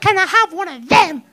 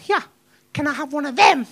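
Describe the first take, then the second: First: It is asked in an angry, stamping tantrum tone. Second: It is asked in an irritated, impatient tone.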